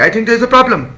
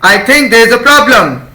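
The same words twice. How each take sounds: First: The sentence is said at a faster pace. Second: The sentence is said at a slower pace.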